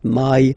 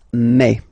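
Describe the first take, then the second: First: The vowel glides like English 'eye'. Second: The vowel is a single open 'eh'. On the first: The speaker calls it wrong. "pronounce it the English way" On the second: The speaker calls it right. "really open e"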